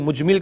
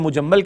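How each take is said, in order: First: The word is said as mujmil. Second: The word is said as mujammal. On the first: "कुछ लोग मुजमिल कहते हैं" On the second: "मुजम्मल कहते हैं"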